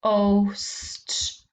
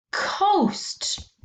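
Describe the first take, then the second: First: Said in the usual way. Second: "coast" much higher, with a clear falling tone; high model word. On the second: Shown as a demonstration. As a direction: say "coast" high and bright for the class. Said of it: "Your turn".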